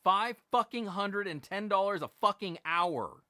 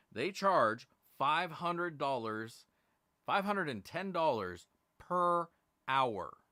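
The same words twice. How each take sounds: First: Louder and higher, furious outburst; angry repeat. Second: Slow, every word weighed; slow emphasis. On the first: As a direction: shout the price in disbelief. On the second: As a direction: spell out the price slowly. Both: Real, not acted. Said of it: "I'm gonna say it again".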